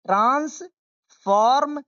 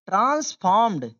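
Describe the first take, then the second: First: Broken-up pronunciation model. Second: Said in the usual way. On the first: Shown as a demonstration. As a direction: stretch transformed piece by piece. Teacher breaks word into parts. (transformed टुकड़ों में, धीरे)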